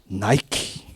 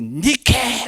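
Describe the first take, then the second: First: The name is said as 'nai-kee'. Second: The name is said as 'nee-keh'. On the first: "영어 발음이 나이키가 된 겁니다" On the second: "그러면서 말한 게 니케 그런 겁니다"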